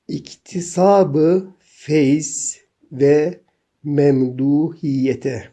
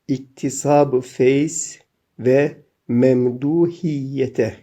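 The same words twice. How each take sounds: The two takes are said the same way.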